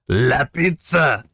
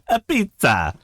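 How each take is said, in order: First: It starts with a clear L sound. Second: It starts with a vowel, no L sound.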